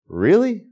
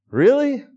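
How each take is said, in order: First: A rising, doubtful "Really?"; mock disbelief at a friend's offer to lead, sceptical rising "Really?"; incredulous. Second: "Really?" jumping much higher in mock shock; mounting disbelief. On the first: Friend bad with directions says follow me, first doubtful "Really?". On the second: Answering a friend bad with directions, squeaky high "Really?". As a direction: push the disbelief way up. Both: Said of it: "It's probably something like".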